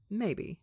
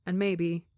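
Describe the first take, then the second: First: "maybe" echoed a touch higher, falling away; a wistful second "maybe"; lingering echo. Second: Said in the usual way. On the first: A narrator's reading. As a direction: let the second "maybe" hang and drop. Narrator repeats for effect.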